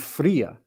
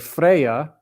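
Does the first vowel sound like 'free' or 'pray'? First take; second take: free; pray. First: The first vowel sounds like the vowel in 'free'. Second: The first vowel sounds like the vowel in 'pray'. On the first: This is the Greek reading of the name. "But in the Greek, with that eta, it's like an it's e, so it'd be free" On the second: This is the English reading of the name. "we as English speakers see it as E Y A. So we say Freya because we're looking at words like pray"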